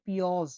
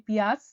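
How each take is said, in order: First: পিওজ said the Uzbek way with o in place of ia; পিওজ with a rounded o sound where Bengali has ia; Uzbek pioz. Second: পিয়াজ said the Bengali way with a clear ia; পিয়াজ with the Bengali ia vowel, as an everyday Bengali word; Bengali piyaj. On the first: Teacher contrasts it with the Uzbek পিওজ. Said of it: "আর উজবেকরা বলে পিওজ". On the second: Teacher gives the Bengali পিয়াজ first. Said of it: "আমরা বাংলায় বলি পিয়াজ". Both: Shown as a demonstration.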